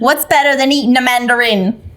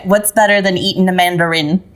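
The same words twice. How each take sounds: First: It is said in an Australian accent. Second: It is said in the speaker's ordinary accent. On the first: The speaker calls it right. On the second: The speaker calls it wrong.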